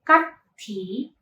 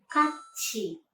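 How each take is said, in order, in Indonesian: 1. Konsonan tengahnya bunyi t biasa. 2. Konsonan tengahnya berubah menjadi bunyi ch. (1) "bukan 같이" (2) "melainkan 같이"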